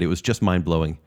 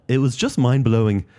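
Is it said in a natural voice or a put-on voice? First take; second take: natural; put-on. First: It is said in his natural voice. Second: It is said in a put-on impression voice.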